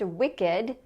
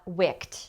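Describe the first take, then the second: First: The ending is a separate extra syllable. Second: The ending is a plain t sound. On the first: It is the adjective. The speaker calls it right. "it's an adjective, and it's pronounced wicked" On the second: It would be a verb form. The speaker calls it wrong. "not wicked"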